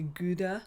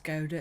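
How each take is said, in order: First: It is pronounced the American way. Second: It is pronounced the British way. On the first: "maybe Gouda in America" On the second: "we might pronounce it as Gouda in the U K"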